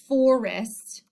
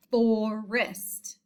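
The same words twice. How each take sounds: First: Said in the usual way. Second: "forest" broken into two syllables; split into syllables. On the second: Shown as a demonstration. Teacher showing the first syllable to pupils, "forest" split in two. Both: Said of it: "That is the first syllable".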